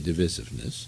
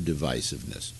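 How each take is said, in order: First: The word has a British pronunciation. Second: The word has an American pronunciation.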